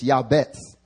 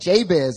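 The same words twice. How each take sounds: First: The name is said the Hebrew way. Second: The name is said the common English way. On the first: The speaker calls it right. "It's actually in the Hebrew, it's Jabez" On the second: The speaker calls it wrong. "Everyone's like, Jabez. His name is not Jabez"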